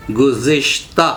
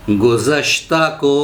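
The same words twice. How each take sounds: First: गुज़िश्ता said as guzishta with clear i; गुज़िश्ता, the right way; correct pronunciation. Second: गुज़श्ता said as guzashta, wrong form; गुज़श्ता, mispronounced version; wrong pronunciation. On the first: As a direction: pronounce गुज़िश्ता with an i after z, carefully. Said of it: "सही तलफ़ुज़ है". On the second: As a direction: say गुज़श्ता with short a after z as the mistake. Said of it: "पढ़ा तो तलफ़ुज़ गलत हो गया". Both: Shown as a demonstration.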